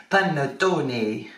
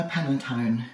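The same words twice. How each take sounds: First: Hammed-up Italian "Panettone", slow and drawn out; mock Italian, stretching every syllable of "Panettone"; a deliberately bad Italian accent on "Panettone". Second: Said in the usual way. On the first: Shown as a demonstration. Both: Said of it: "That was a really bad accent".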